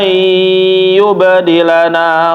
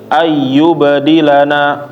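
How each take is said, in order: First: The doubled sound is held for a while. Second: The doubled sound is passed over quickly. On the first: The speaker calls it right. "Tetapi ditahan" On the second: The speaker calls it wrong. "Jangan sampai langsung pindah. Jangan kayak tasdid"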